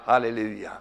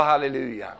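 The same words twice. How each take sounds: First: Said in the usual way. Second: Louder call for halleluja. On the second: Shown as a demonstration. Preacher urging the congregation, louder call. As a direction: repeat it louder, urging the crowd. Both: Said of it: "Jag sa halleluja".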